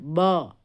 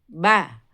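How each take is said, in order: First: The sound is held back inside, dark and muffled. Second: The sound is directed outward, clear and open. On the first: The speaker calls it wrong. "Jangan bo" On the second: The speaker calls it right. "kita harus arahkan suara keluar"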